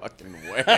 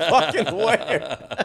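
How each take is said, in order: First: Quiet echo through laughter; soft, laughing echo of the punchline; laughing repeat. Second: High, drawn-out squeal through laughter; high laughing repeat. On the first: Cohost repeating the punchline, quiet laughing echo. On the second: Cohost relishing the punchline, high slow laughing squeal. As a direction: stretch it out very slowly, laughing and high. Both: Real, not acted.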